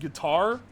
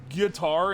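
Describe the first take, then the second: First: The stress is on the second syllable. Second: The stress is on the first syllable. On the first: "instead of guitar" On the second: "putting the emphasis on the first syllable of guitar"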